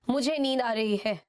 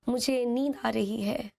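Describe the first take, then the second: First: It is said in a rude tone. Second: It is said in a polite tone.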